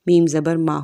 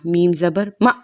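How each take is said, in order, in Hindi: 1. आख़िरी हर्फ़ धीरे और नरमी से छोड़ा जाता है। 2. आख़िरी हर्फ़ झटके के साथ कट जाता है।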